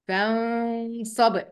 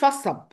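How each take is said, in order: First: The n is hidden with a held nasal sound. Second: The n is dropped completely. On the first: The speaker calls it right. "قلت إيه" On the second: The speaker calls it wrong. "وما قلتش فصب"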